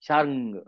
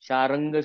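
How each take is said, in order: First: The r joins the ng with no vowel. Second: A full vowel comes between r and ng. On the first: The speaker calls it right. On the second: The speaker calls it wrong. "शारंग सुद्धा नाहीये ते पूर्ण"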